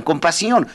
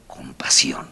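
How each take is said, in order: First: Said in the usual way. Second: Whispered refrain. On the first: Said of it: "repeated refrain building". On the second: Shown as a demonstration. Speaker to the audience, whispering "con pasión" as a climax. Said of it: "refrain dropped to whisper".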